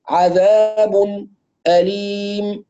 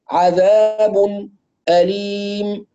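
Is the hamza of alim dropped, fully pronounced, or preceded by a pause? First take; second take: paused; paused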